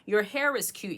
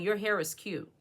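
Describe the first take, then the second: First: It is said as a plain, sincere compliment. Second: It is said in a snide, doubtful tone. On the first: The compliment is meant honestly. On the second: The speaker wants you to doubt yourself.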